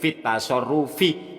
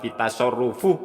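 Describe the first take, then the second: First: The word ends with an 'i' vowel. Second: The word ends with an 'u' vowel. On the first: The speaker calls it right. "Sing bener iku fit tasarrufi" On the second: The speaker calls it wrong. "Jangan dibaca fit tasarrufu"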